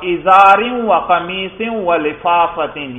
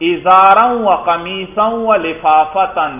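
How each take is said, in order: First: The nouns carry the genitive (jarr) case ending. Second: The nouns carry the accusative (nasb) case ending. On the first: "یہاں جر پڑھا" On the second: "دیکھو نصب پڑھا"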